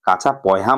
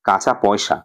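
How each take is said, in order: First: The last word is said with an h sound. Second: The last word is said with an s sound. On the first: It imitates a casual colloquial way of talking. "যে এরকম ভাবে সে উচ্চারণ করছে" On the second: It is the standard form of the phrase. "মানে হলো"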